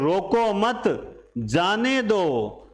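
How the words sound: The pause comes right after मत.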